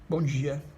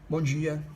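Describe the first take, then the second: No difference in how they are said.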